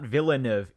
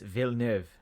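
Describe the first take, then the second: First: The name is pronounced with an anglicized sound. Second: The name is pronounced with a French sound. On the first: The speaker calls it wrong. "It's not Villeneuve" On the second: The speaker calls it right. "It's French"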